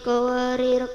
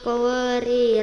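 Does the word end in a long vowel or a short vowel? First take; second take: short vowel; long vowel. First: The word ends in a short vowel. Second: The word ends in a long vowel. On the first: The reader continues without stopping. "dibaca wasol pendek berbunyi" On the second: The reader stops after this word. "Dibaca wakaf panjang berbunyi"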